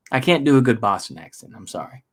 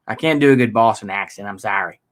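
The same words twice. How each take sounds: First: Said in the usual way. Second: Bad Boston accent. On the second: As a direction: apologize in a rough Boston accent.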